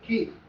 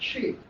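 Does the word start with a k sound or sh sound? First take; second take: k sound; sh sound. First: The word starts with a k sound. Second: The word starts with an sh sound. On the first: This is how it is said in Pakistan. "In Pakistan, we say K" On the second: This is how it is said in Kandahar. "in Kandahar they pronounce it as Sheen and they say She"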